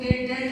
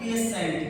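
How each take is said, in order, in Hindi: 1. बीच का व्यंजन t की आवाज़ है। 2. बीच का व्यंजन sh की आवाज़ है। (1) "इसको हम पेटेंट नहीं पढ़ेंगे" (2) "यानी ये वाला सा आ जाएगा"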